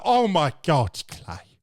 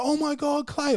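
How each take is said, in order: First: Imitated girl with a British accent; mock British accent, dropping away on the name; put-on British accent. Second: High mock greeting from an old acquaintance; excited girl greeting. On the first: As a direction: redo her greeting in a heavy British accent. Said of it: "she sounded like fucking Ricky Gervais". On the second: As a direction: imitate her surprised hello way up high. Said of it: "she's like".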